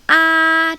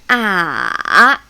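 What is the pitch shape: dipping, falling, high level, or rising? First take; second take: high level; dipping. First: The pitch stays high and level. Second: The pitch starts low, dips, then rises. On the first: "The tone one is ah, it's like opera. just keep it there, very high" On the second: "it starts a little lower... and coming down, and rising. So it's down and up"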